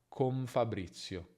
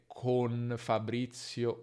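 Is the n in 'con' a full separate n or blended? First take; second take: blended; separate. First: The n blends into an m-like sound before f. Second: A full separate n sound before the f. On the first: The speaker calls it right. "Non è necessario separare e dire una vera N, ma con Fabrizio" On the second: The speaker calls it wrong. "l'importante è non dire con Fabrizio"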